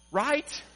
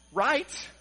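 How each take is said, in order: Both takes have the same delivery.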